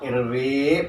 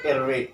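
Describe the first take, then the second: First: The final vowel is held long. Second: The final vowel is cut short. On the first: The speaker calls it wrong. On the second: The speaker calls it right. "buang yanya jadi pendek"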